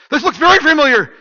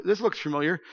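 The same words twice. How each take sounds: First: High, loud cry of dawning recognition; mock alarm. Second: Said in the usual way. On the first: Acting Mike recognising the pastor's street, loud mock alarm. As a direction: burst out much higher and louder on "very familiar".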